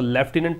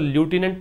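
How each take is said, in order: First: The word starts with left, with an f sound. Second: The word starts with loo, with no f sound. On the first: "British English में जब इसको आप प्रोनाउंशिएट करेंगे तो लेफ्टिनेंट पढ़ेंगे" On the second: "American English में जब आप इसको प्रोनाउंशिएट करेंगे तो ल्यूटिनेंट पढ़ेंगे"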